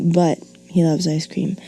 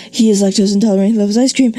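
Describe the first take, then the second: First: Said in the usual way. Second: Fast, louder run-on with no pause; run-on read too fast to breathe; breathless run-on. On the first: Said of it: "You can have a comma". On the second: Shown as a demonstration. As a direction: cram both clauses in one fast breath. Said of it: "Where do you breathe?".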